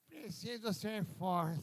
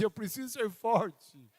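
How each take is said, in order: First: It is said weakly and wearily. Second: It is said forcefully with intensity.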